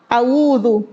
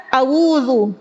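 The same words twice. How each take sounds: Both takes have the same delivery.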